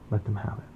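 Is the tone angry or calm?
calm. It sounds calm and yielding.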